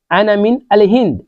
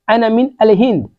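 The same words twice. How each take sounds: The two takes are said the same way.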